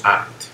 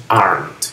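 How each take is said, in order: First: "aren't" said quickly as the wrong example; wrong pronunciation. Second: "aren't" as one slow syllable, no E sound; silent final E. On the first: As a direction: say "aren't" the mistaken way, short and unstressed. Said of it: "No pronunciamos la E al final. No decimos". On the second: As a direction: draw out "aren't", ending straight on the N-T. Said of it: "No pronunciamos la E al final". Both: Shown as a demonstration.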